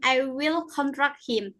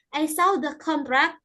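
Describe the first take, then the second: First: "contract" as a verb, second syllable stressed. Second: "contract" as a noun, first syllable stressed. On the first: Student reading an example sentence, "contract" stressed on its second syllable. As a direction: put the weight on the end of "contract". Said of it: "stress on the second syllable". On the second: Student reading an example sentence, "contract" stressed on its first syllable. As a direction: put the weight on the start of "contract". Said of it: "stress on the first". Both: Shown as a demonstration.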